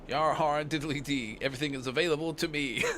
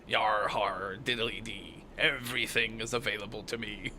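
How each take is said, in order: First: It is said in a plain, normal voice. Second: It is said in a put-on pirate voice.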